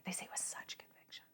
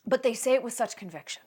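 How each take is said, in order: First: Hushed, barely voiced whisper; whispered repeat. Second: Said in the usual way. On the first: Real, not acted. Comic repeating the point to listeners, intense whisper. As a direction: drop to a whisper for emphasis.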